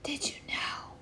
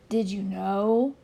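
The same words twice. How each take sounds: First: A soft, secretive whisper. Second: Said in the usual way. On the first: Acted. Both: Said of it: "whispering now".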